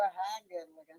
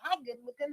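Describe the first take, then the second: First: The greeting sounds leering and suggestive. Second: The greeting sounds casual and friendly. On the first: The compliment is a come-on. The speaker calls it wrong. "you don't look them up and down and go" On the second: The compliment is just a friendly everyday greeting. The speaker calls it right. "As if it's the average thing you do every day"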